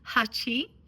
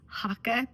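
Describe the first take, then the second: First: It has a ch sound and ends in ee. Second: The middle consonant is a hard k sound. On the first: This is close to the Japanese number eight. The speaker calls it right. "the correct term is Hachi" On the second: This is how it is often said in the States. The speaker calls it wrong. "I oftentimes call this Haka because I'm in the States"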